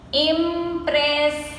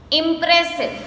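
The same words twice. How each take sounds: First: "Impressive" split as im-pres-sive; three long, separate beats on "Impressive"; slowly broken up. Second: Said in the usual way. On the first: Shown as a demonstration. Teacher counting three syllables, "Impressive" slowly broken up. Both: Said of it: "we say it slowly and we break the word".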